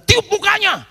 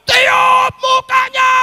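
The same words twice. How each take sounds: First: High, loud call of "Tiup mukanya"; loud instruction. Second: Very loud, slow, drawn-out yell of "Tiup mukanya!"; yelled order. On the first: Preacher telling the husband on the phone, loud and high. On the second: Preacher yelling the instruction down the phone, slow and very loud. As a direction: bellow it slowly so he finally hears. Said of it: "saya teriak". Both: Retold or imitated.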